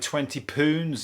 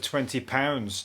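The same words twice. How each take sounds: First: The vowel in 'pounds' sounds like 'oo'. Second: The vowel in 'pounds' sounds like 'ow'. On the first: It is how the fake notes spell it, like a Scottish accent. The speaker calls it wrong. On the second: It is how real notes spell it. The speaker calls it right.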